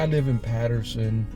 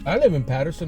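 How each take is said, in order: First: It is said in an ashamed, apologetic tone. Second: It is said in a plain, unashamed tone. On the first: Living there is something to be embarrassed about. The speaker calls it wrong. "like that's some type of shameful thing that you live in Patterson" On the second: Living there is nothing to be embarrassed about. The speaker calls it right. "I'm not embarrassed about it"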